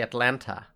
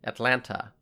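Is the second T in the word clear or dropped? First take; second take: clear; clear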